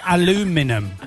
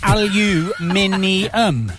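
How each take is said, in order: First: The word is said with four syllables, a-lu-mi-num. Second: The word is said with five syllables, al-u-min-i-um. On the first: This is the American way of saying it. "They say aluminum" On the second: This is the British way of saying it. "it's aluminium"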